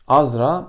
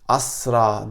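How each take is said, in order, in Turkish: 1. Orta ünsüz sesli z sesidir. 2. Orta ünsüz sessiz s sesidir. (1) "bir hecenin sonundaki Z sesini" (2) "bu ismi Asra diye telaffuz eden insanlara çok rastlanıyor"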